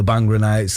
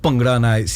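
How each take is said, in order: First: Bhangra has a casual, anglicized pronunciation. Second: Bhangra has a careful, Punjabi-style pronunciation. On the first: The speaker calls it wrong. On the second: The speaker calls it right.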